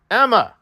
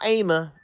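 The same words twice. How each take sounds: First: Said in the usual way. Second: Emma with a long A, "AY-ma"; mispronounced Emma. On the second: Shown as a demonstration. Streamer correcting a slip in the name, Emma as "AY-ma". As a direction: say Emma as "AY-muh". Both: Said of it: "Okay, not Emma".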